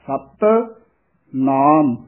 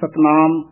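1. ਦੋਵੇਂ ਸ਼ਬਦ ਵੱਖਰੇ ਹਨ, ਪਹਿਲੇ ਸ਼ਬਦ ਉੱਤੇ ਥੋੜਾ ਜ਼ੋਰ ਕੱਸ ਕੇ ਦਿਓ। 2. ਦੋਵੇਂ ਸ਼ਬਦ ਇਕੱਠੇ ਜੋੜ ਕੇ ਇੱਕ ਵਾਂਗ ਬੋਲੇ ਜਾਂਦੇ ਹਨ। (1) "ਸਤ ਪਦ ਹੈ ਇਹ ਥੋੜਾ ਜਿਹਾ ਕੱਸ ਕੇ ਉਚਾਰਨ ਕਰਨਾ ਹੈ" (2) "ਕਈ ਇਕੱਠਾ ਹੀ ਬੋਲ ਜਾਂਦੇ ਹਨ"

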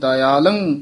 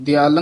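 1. ਸ਼ਬਦ ਵੱਖਰੀ 'da-i' ਆਵਾਜ਼ ਨਾਲ ਸ਼ੁਰੂ ਹੁੰਦਾ ਹੈ। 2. ਸ਼ਬਦ ਛੋਟੀ 'di' ਆਵਾਜ਼ ਨਾਲ ਸ਼ੁਰੂ ਹੁੰਦਾ ਹੈ। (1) "ਦਇਆਲੰ ਇੱਥੇ ਯਮਕ ਲਾ ਦਿੰਦੀ ਹੈ" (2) "ਦਿਆਲੰ ਨਹੀਂ ਬੋਲਣਾ"

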